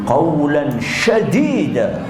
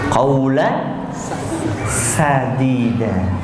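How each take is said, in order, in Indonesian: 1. Sadida diawali dengan bunyi sh. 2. Sadida diawali dengan bunyi s biasa. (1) "Tapi keliru" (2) "Sadida pakai sin"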